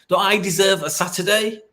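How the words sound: The voice sounds odd and unusual. The speaker calls it wrong. "I said it in such a weird way"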